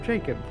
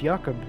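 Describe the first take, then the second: First: The name begins with a J sound. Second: The name begins with a Y sound. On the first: The name is changed to fit the speaker's own culture. The speaker calls it wrong. "you insisted on calling them Jacob" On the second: This is how the person wants to be called. The speaker calls it right. "where you pronounce the J as a Y"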